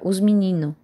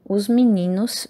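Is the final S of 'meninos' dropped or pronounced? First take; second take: dropped; pronounced. First: The final S sound is dropped. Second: The final S sound is pronounced. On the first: "vira os menino" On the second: "assimilação do S no final"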